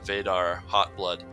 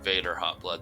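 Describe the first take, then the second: First: The name is said with a Russian accent. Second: The name is said with an English accent. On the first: "I pronounced that as a uh, well with an amateurish Russian accent" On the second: "I think that Vader Hotblood sounds way better"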